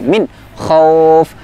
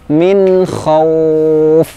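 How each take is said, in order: First: The n sound is cut off abruptly. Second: The n sound flows on briefly before kh. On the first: The speaker calls it wrong. "tidak serta merta berhenti" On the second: The speaker calls it right. "tetapi ada sifat tawassutnya"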